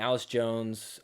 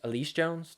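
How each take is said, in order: First: The first name begins with an 'a' sound. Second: The first name begins with an 'ee' sound. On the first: The speaker calls it wrong. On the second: The speaker calls it right.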